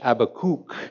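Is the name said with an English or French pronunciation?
French. The name is said with French pronunciation. "as I learned you say it in French"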